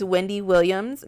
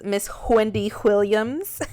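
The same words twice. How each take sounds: First: Said in the usual way. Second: Put-on playful New York accent, breathy "Wh" on "Wendy Williams". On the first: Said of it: "when I do that little accent". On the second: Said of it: "a nod towards Wendy Williams".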